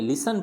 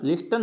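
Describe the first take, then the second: First: लिसन with silent T; correct pronunciation लिसन. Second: लिस्टन with the T sounded; mispronounced लिस्टन. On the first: Teacher correcting the reading, लिसन without T. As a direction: say लिसन as li-san. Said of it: "लिसन पढ़ेंगे". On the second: Teacher showing what not to read, लिस्टन with audible T. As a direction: say लिस्टन as lis-tan. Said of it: "लिस्टन नहीं पढ़ेंगे". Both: Shown as a demonstration.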